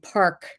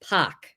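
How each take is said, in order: First: The vowel is followed by a clear R sound. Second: The R is dropped, with a different A vowel. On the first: This is the usual way to say it. "instead of saying park" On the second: This is how people there say it. "So it's this weird A"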